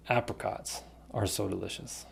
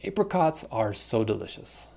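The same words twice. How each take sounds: First: Apricots with short a as in cat. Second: Apricots with a long ay. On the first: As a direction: say "Apricots" as AP-ricots. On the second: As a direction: say "Apricots" as AY-pricots. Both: Shown as a demonstration. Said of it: "apricot or apricot".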